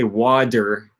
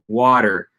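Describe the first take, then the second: First: The middle consonant is a full, held D. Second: The middle consonant is a quick voiced flap. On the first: The speaker calls it wrong. "it's not an actual D sound. I don't say water" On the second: The speaker calls it right. "it comes out pretty close to that"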